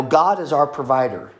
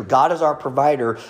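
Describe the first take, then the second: First: Said in the usual way. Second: "our" leaned on a little, falling close; stress on our. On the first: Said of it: "That's scriptural". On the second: Shown as a demonstration. Pastor repeats the truth to the church, stress on our. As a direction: push the word "our" a touch. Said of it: "We know that true".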